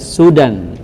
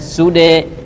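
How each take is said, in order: First: The word ends in an 'an' sound. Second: The word ends in a bare 'e' vowel. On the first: The reader continues past this word. "tapi kalau lanjut tetap dibaca sudan" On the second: The reader stops on this word. "Kalau berhenti berarti dibaca sude"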